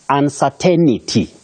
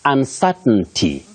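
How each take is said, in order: First: An extra 'ni' sound is inserted mid-word. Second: No extra 'ni' sound is inserted mid-word. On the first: The speaker calls it wrong. "Many people innocently say uncertainty" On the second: The speaker calls it right. "You say uncertainty"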